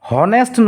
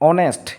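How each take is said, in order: First: The word begins with an audible h sound. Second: The word begins directly with a vowel sound. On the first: The speaker calls it wrong. "হনেষ্ট নকওঁ" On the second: The speaker calls it right. "এইচৰ উচ্চাৰণটো clear হোৱা নাই"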